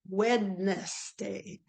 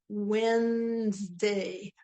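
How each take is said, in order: First: It is said as three syllables, every letter sounded. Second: It is said as two syllables, the middle dropped. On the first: This is how the word is spelled. "but it's spelled Wednesday" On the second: This is how people normally say it. "we go Wednesday"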